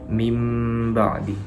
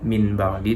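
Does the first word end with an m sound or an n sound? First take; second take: m sound; n sound. First: The first word ends with an m sound. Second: The first word ends with a clear n sound. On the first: The speaker calls it right. "tetapi mim ba'di, masuk kepada huruf ba" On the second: The speaker calls it wrong. "bukan lagi cara membacanya min ba'di"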